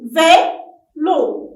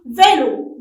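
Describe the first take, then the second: First: "Vélo" as two loud beats, Vé, lo; teacher's loud, separated "Vé... lo"; syllable by syllable. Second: Said in the usual way. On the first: Shown as a demonstration. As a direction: clap out "Vélo" with a gap between syllables. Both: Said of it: "frappez-le".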